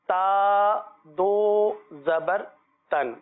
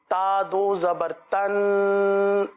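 First: The final n is clear, without nasal holding. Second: The final n is nasalized and held. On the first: The speaker calls it right. "اظہار کرنا ہے. صحیح ہے, اس طرح ہم پڑھیں گے" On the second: The speaker calls it wrong. "یہ غنہ ہو گیا, غنہ نہیں کرنا"

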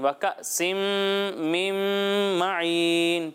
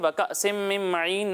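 First: The nasal sound is held for a full beat. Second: The nasal sound is cut short. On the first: The speaker calls it right. "غنہ کی مقدار پوری کرنی ہے" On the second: The speaker calls it wrong. "وكأس من معين نہیں"

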